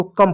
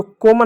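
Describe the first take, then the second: First: कम said like English "come"; correct exception reading. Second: कोमा said as "kome" with a long o; wrong long-o reading. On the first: Teacher giving the exception to the rule, short vowel. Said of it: "इसको कम पढ़ेंगे". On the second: Teacher rejecting the rule-based reading, long o. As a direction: give कोमा a long o after the k. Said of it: "इसको कोमा नहीं पढ़ेंगे". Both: Shown as a demonstration.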